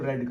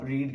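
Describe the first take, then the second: First: The vowel is short, like 'red'. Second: The vowel is long, like 'reed'. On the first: It is the past or past participle form. "अगर second या third है तो आप इसको रेड करोगे" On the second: It is the present, first form of the verb. "अगर ये first form में है तो आप रीड के तौर पे यूज करोगे"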